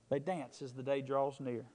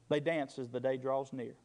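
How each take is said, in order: The two takes are said the same way.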